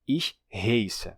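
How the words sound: The vowel is an 'ay'-like diphthong. Some Hunsrückisch speakers say it this way. "alguns falantes fazem o ditongo"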